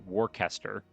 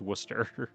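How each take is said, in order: First: Every letter of the name is pronounced. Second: The middle part of the name is dropped. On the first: The speaker calls it wrong. "I called it Worcester because that's how it's spelled" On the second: The speaker calls it right. "you just don't pronounce any of the middle part"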